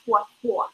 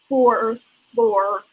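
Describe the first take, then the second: First: The r sounds are dropped after the vowels. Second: Both r sounds are clearly pronounced. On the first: "in New York English" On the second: "in standard American English or general American English, that's four floor with two er sounds"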